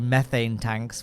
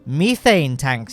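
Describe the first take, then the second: First: Methane is pronounced the non-British way. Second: Methane is pronounced the British way. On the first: "for non-British people" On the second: "It's how we pronounce it in my country"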